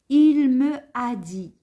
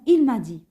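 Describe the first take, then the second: First: The vowel of 'me' is fully pronounced. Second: The vowel of 'me' is dropped and linked. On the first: The speaker calls it wrong. "شوفوا كيفاش النطق يجي ثقيل" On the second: The speaker calls it right. "directement il m'a dit"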